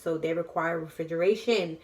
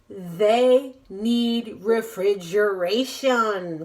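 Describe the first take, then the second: First: It is said at a fast pace. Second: It is said at a slow pace.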